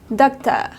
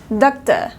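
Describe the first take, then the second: No difference in how they are said.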